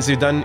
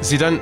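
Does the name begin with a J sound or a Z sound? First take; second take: Z sound; Z sound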